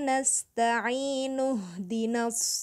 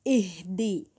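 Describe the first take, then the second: First: The initial i merges into the preceding vowel. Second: The word begins with a clear i sound. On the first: The word is joined to the previous word without stopping. "Tapi kalau saya sambung, hamzah wasolnya nggak terbaca" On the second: The reading starts fresh at this word after a stop. "ini kan jadi awal kata nih... berarti di sini jadi ihdi"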